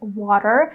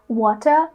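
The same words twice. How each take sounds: First: The middle T is a quick D-like flap. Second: The middle T is a crisp, clear T. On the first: "this flap T sound, like in the word water" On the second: "I used to say water all the time"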